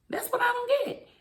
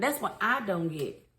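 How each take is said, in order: First: High-pitched exasperated repeat; squeaky high disbelief. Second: Said in the usual way. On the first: Real, not acted. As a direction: pitch jumps way up in baffled disbelief. Repeats line to stress confusion.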